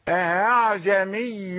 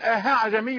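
First: The second hamza is softened between hamza and alif. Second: The second hamza sounds like a strong h. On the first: The speaker calls it right. "التسهيل كما نطقت هكذا" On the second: The speaker calls it wrong. "لا تقل أها عجمي بهاء قوية هكذا"

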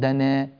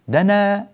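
First: The final vowel is tilted toward e. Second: The final vowel is a fully open a. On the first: The speaker calls it wrong. "لا تقول دنا، دنا غلط" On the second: The speaker calls it right. "افتحها"

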